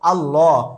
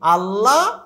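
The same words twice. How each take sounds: First: The l is heavy with an o-like vowel. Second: The l is light with an a-like vowel. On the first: The speaker calls it right. "শব্দটির সঠিক উচ্চারণ হবে আল্লাহ" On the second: The speaker calls it wrong. "আল্লাহ নয়"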